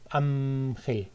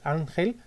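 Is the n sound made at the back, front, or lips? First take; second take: lips; front. First: The n is made with both lips, like m. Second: The n is made behind the upper teeth. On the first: "convertirla en una bilabial" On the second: "desde los alveolos"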